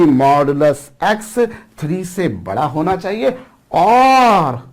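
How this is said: The word 'और' is said with strong stress. The speaker calls it right. "उसी पर मुझे स्ट्रेस देना चाहिए"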